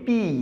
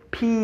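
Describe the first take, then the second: First: The p is said without a puff of air. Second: The p is released with a puff of air. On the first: The speaker calls it wrong. "This is not পি" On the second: The speaker calls it right. "হঠাৎ বাতাসটাকে ধাক্কা দিয়ে বের করে দিয়ে"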